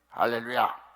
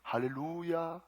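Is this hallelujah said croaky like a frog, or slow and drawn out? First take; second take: croaky; slow. First: The word is croaked in a frog-like voice. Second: The word is drawn out slowly. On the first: "이렇게 개구리 소리를 내면서" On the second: "말은 천천히"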